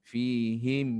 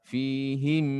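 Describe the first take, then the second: No difference in how they are said.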